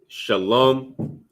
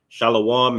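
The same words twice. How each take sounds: First: The word drops the 'wa' sound. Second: The word keeps the 'wa' sound. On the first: The speaker calls it right. "that wa would drop off ... So shalom will be the correct thing" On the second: The speaker calls it wrong. "Shalom is incorrect"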